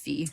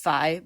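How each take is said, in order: First: The vowel rhymes with the word see. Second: The vowel rhymes with the word sky. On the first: "everyone else I hear says Fee" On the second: "I always pronounced it as Fi ... like sky"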